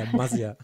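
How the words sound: The name is said in a Franconian accent. "sondern fränkisch auszusprechen"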